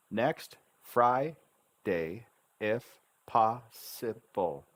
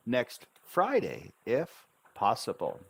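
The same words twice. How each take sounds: First: Very slow, Fri-day and pos-si-ble broken into pieces; syllable by syllable. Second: Joined-up words with FRIDAY lifted and falling; with intonation. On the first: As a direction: pause after each syllable of "Next Friday, if possible". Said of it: "learn to speak the syllable sounds". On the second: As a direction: run the syllables together, stress on Friday. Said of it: "Now we add the intonation". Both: Shown as a demonstration.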